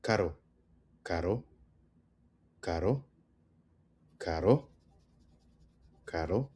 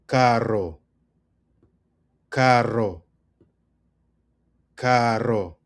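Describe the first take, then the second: First: Caro with one quick tapped R. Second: Carro with a long trilled RR; rolled R. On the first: Teacher models the word for expensive, "caro" with a soft tapped R. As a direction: say "caro" lightly, the R a single flick. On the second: Teacher models the word for car, "carro" with a strongly rolled RR. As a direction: roll the R hard in "carro". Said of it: "And then we have car". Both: Shown as a demonstration.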